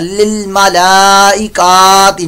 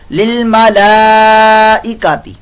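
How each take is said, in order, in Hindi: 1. 'ka' अक्षर लंबा खींचा जाता है। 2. 'ka' अक्षर छोटा रखा जाता है।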